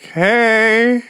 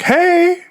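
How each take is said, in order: First: High, uneasy greeting, played up; nervous reply. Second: Very high singsong hello, imitating mom; mother's greeting. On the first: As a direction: answer mom in a thin pretend-casual high voice. Nervous son answers mother's greeting. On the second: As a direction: chirp it high like a mother coming home.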